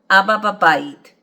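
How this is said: The pitch falls at the end. It states that Dad is in the house. "statement, ... the tone drops at the end"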